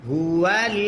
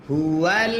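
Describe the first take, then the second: No difference in how they are said.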